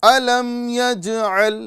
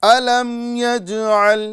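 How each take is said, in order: Both takes have the same delivery.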